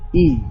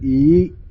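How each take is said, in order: First: The pitch stays level throughout. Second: The pitch starts low and rises high. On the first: "that's flat" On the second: "is low going to high"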